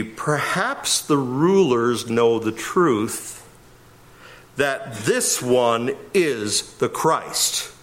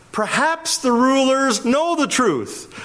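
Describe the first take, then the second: First: Slow, deliberate literal read. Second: "Perhaps the rulers know the truth" stated firmly, stress on know, falling end; as a statement. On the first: Preacher reading the literal text to the congregation, slow and deliberate. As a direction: read it word by word, slowly. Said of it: "A literal read would be". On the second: Preacher correcting the question into a statement, emphatic. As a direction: say it as a flat statement, leaning on know. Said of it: "it's a statement". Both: Shown as a demonstration.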